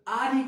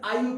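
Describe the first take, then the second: First: The two words are said fully and separately. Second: The words are merged into one short word.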